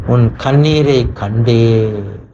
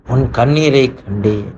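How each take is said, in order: First: Very slow, every word drawn out; slowed-down tender promise; slow emphatic. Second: Said in the usual way. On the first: Acted. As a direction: linger on each word as a promise. Preacher voicing God's tender promise.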